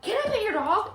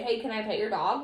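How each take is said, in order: First: Put-on high, loud eager kid voice; a child rushing in, squealing the question; excited kid. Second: Even, calm request; calm polite ask. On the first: Mimicking kids who run at the dog, high and loud. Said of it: "so many kids just run up to her, like". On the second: Shown as a demonstration. Showing how a calm kid asks, even and gentle. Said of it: "calmly and say".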